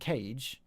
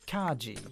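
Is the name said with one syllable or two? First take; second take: one; two. First: It is said as one syllable, like 'cage'. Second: It is said as two syllables, 'kah-gee'. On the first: The speaker calls it wrong. "the name isn't Cage" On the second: The speaker calls it right. "it's pronounced Kaji"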